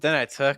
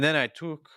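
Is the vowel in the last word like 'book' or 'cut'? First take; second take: cut; book. First: The last word has the vowel of cut. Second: The last word has the vowel of book. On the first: The speaker calls it wrong. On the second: The speaker calls it right.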